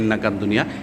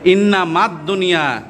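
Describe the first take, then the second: First: The first word has a 'k' sound: innakad. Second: The first word has an 'm' sound: innamad. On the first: The speaker calls it wrong. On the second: The speaker calls it right.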